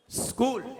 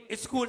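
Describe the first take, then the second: First: "स्कूल" from a bare hissed s; no vowel before "स्कूल"; correct pronunciation. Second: "स्कूल" said as iskool; short i in front of "स्कूल"; wrong pronunciation. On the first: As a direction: say "स्कूल" as sskool. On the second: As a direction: start "स्कूल" on a vowel. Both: Shown as a demonstration. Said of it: "गलत है".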